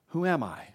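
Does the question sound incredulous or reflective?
reflective. It sounds reflective and searching. The speaker wonders about their own identity. "What is my purpose in life?"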